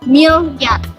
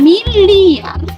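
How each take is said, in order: First: A consonant glide y follows the l. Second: A full vowel i follows the l. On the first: The speaker calls it wrong. "perubahan fonem I menjadi fonem Y" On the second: The speaker calls it right. "Bentuk kata baku itu merupakan uh, miliar"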